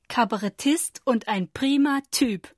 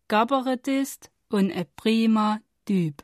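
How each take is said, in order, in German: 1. Standarddeutsch mit harten k, p und t. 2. Sächsischer Dialekt mit weichen k, p und t. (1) "Der gemeine Hochdeutsche würde sagen" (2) "Bei uns hieß das aber"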